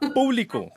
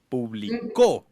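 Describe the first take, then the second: First: The stress is on the first syllable. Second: The stress is on the last syllable. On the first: It means something open to everyone. "lleva tilde en la U" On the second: Something was published in the past. "con tilde en la U al final"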